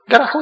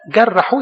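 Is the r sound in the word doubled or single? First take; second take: single; doubled. First: The r sound is short and single. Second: The r sound is held long and doubled. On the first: He gave him just one wound. "جرحوا يعني عمل له جرحة كده وخلصنا" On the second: He covered him with many wounds. "لا جرحوا يعني ملو جروح"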